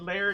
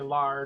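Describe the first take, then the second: First: The name rhymes with 'care'. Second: The name rhymes with 'car'. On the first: This is how the family says the name. The speaker calls it right. "they pronounced it Lair. So I probably should have always said Lair to you" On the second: This is the speaker's own playful version. The speaker calls it wrong. "I sometimes say Lar just because I can"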